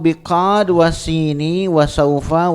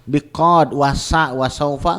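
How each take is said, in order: First: The middle letter is read as 'sin'. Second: The middle letter is read as 'sa'. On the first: The speaker calls it right. "Sin ya karena dia satu huruf dibacanya sin aja" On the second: The speaker calls it wrong.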